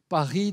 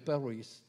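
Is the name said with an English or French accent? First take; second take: French; English. First: It is said with a French accent. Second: It is said with an English accent.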